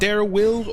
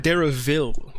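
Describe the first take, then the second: First: The middle consonant is a W sound. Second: The middle consonant is a V sound.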